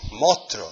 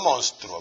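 First: It is said with an Andalusian pronunciation. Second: It is said with a standard Spanish pronunciation. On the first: The speaker calls it right. "Monstruo, no monstruo" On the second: The speaker calls it wrong. "no monstruo"

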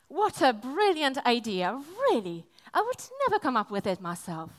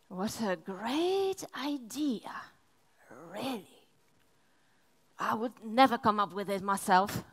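First: It is said as a sincere compliment. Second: It is said in a mocking, sarcastic tone.

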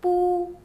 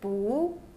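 First: The pitch stays high and level. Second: The pitch rises from mid to high.

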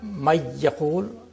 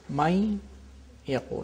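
First: The n merges fully into the y. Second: The n keeps its nasal quality before y. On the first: The speaker calls it wrong. "It's not may yaqul" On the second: The speaker calls it right. "nasality of the noon is there"

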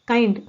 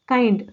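Both takes have the same delivery.

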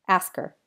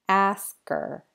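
First: The phrase is said quickly. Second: The phrase is said more slowly. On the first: "and then fast again" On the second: "then a little slower"

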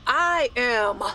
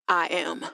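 First: It sounds confident and convinced. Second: It sounds hesitant and unconvinced.

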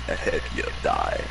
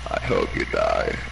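First: It is said in a breathy, sinister villain voice. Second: It is said in a flat, monotone voice. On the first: The speaker calls it right. "You gotta add a little breath after that. Palpatine and shit, like" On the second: The speaker calls it wrong. "you feel so monotone"

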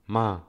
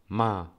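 First: The syllable sounds sharp, like a command. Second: The same.

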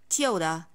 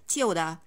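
No difference in how they are said.

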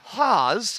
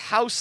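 First: The name rhymes with the word pause. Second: The name rhymes with the word house. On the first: The speaker calls it right. "It's Haas. Rhymes with pause" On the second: The speaker calls it wrong. "which I pronounced as house last week"

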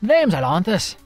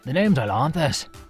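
First: The voice is pitched at a higher, lighter level. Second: The voice is pitched very low and deep. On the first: The speaker calls it wrong. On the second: The speaker calls it right.

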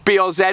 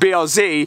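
First: The name is said the non-American way. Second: The name is said the American way.

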